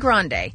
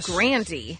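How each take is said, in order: First: The name is said in its original form. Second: The name is said in an Americanized form. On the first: This is the family's original name. "It was originally Grande" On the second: The name was changed to sound more American. "to Americanize it to Grandy"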